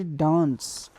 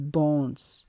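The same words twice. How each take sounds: First: Said in the usual way. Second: Danse said dons, nasal vowel; French danse. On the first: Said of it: "in English we say". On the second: Shown as a demonstration. Teacher contrasting English dance with French for students. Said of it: "in French we say".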